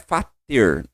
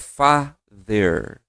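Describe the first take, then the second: First: The middle consonant is a hard T sound. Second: The middle consonant is a soft D-like sound. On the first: The speaker calls it wrong. "aqui não é fater, não, tem, não é tom de T" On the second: The speaker calls it right. "é father, como se fosse quase um D"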